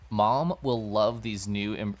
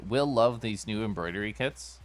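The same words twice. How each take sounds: First: "Mom" pushed up front, "will" rushed past, slow; stress on Mom. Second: "Will" hit first and rising, then the rest plain; stress on will. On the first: Misreading the game line, leaning on Mom. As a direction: land on "Mom will love these new em-" with the weight on Mom. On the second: Correcting the misread line, punching Will. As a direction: restart on "Will love these new embroidery kits" leaning on Will. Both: Shown as a demonstration. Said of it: "oh, the will that kills me".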